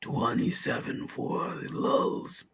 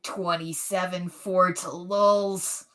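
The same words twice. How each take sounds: First: Put-on very slow, soft whisper of a tough old gunslinger; showing how an old Clint Eastwood would sound. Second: Very slow, drawn-out tough-guy voice; a young man's try at a Clint Eastwood voice. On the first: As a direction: breathe "Twenty-seven Fort Lulz" out slowly with no voice. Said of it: "that was like a twenty-five-year-old Clint Eastwood". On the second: Pretend. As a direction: stretch every word out like an old gunslinger. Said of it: "do Clint Eastwood".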